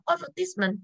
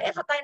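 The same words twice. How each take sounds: First: "advertisement" with the first vowel reduced to ơ; changed noun vowel. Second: "advertise" opening on a clear e sound; verb pronunciation. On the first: Teacher shows the class the noun shift, ơ sound in "advertisement". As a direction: open "advertisement" on an uh-like sound, not e. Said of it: "Nó sẽ là âm ơ". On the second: Teacher tests the class on the noun, keeping the verb sound of "advertise". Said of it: "Khi sang danh từ còn là advertise nữa không". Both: Shown as a demonstration.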